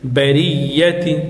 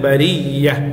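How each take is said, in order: First: The word ends with a t and i vowel. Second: The word ends with a soft h sound. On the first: The word continues into what follows. "تازرتي بريتي" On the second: The reader stops on this word. "থামলে برية শেষে হার উচ্চারণ হবে"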